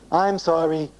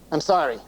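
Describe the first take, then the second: First: It sounds exaggeratedly sincere. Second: It sounds grudging and unwilling.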